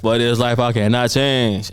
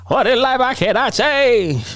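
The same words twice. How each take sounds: First: The voice sounds natural and unexaggerated. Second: The voice sounds weird and exaggerated. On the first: This is how the original artist sounds. "[name] is like" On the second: This is someone mimicking the original artist. "somebody mimicking [name] like in a weird voice"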